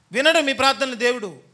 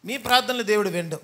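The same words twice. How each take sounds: First: వినడు moved to the front and hit hard; stress on వినడు. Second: Said in the usual way. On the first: Shown as a demonstration. Preacher warning mothers-in-law, leading with a punched వినడు. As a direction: slam వినడు first, then the rest.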